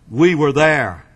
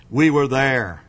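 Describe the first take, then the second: No difference in how they are said.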